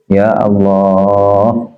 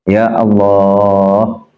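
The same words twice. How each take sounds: No difference in how they are said.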